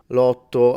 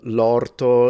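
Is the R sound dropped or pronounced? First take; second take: dropped; pronounced. First: The R sound is dropped from the word. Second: The R sound is pronounced in the word.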